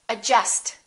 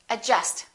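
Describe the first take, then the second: No difference in how they are said.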